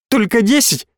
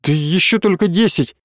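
First: Much higher, outraged echo of только; a mother echoes her daughter, outraged; incredulous echo. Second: Said in the usual way. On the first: A narrator's reading. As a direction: throw her words back in disbelief.

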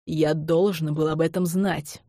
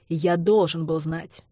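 First: Slow, heavy stress on знать; an understated roar, slow and weighty; mock roar. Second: Должен stressed, slow and firm; slow insistence with должен punched. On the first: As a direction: lean on the last word знать, drawn out. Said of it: "взревел я". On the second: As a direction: hit должен, let знать fall. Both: A narrator's reading.

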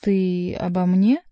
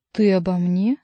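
First: Slow, louder, rising in disbelief; drawn-out astonished question; surprised. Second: Louder, with a sharp rise on ты; stunned, stressing ты; more surprised. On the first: Monk, scolded by Chicot, asks in surprise. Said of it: "удивлённо воззрился". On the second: Monk, repeating himself, more astonished. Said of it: "всё более и более поражаясь". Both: A narrator's reading.

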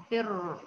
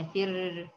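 First: فر with a thick, full r; heavy ra. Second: فر with a thin, light r. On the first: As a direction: darken the held r of فر. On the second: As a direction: lighten the held r of فر. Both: Shown as a demonstration. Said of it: "بالتفخيم ولا فر؟".

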